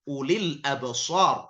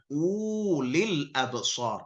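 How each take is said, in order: First: The first vowel is said short. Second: The first vowel is said long. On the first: The speaker calls it right. "dipendekkan, tidak dianggap wawunya" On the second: The speaker calls it wrong.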